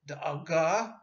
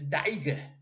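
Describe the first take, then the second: First: It is said in modern Israeli Hebrew pronunciation. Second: It is said in Ashkenazic Yiddish pronunciation. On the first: "in modern Hebrew" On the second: "in Yiddish"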